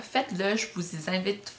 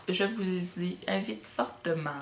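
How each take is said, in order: First: Said in the usual way. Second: Slow, insistent je vous y invite fortement, fortement leaned on. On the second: Real, not acted. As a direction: drag out je vous y invite fortement to urge them.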